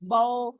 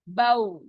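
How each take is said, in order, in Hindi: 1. स्वर उर्दू शैली के खुले 'ao' पर खत्म होता है। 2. स्वर अंत में कसकर गोल किए होंठों की ओर सरकता है, 'ow' जैसा। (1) "ऐसे नहीं पढ़ना" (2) "होंठ बिल्कुल गोल होंगे डोनट की तरह"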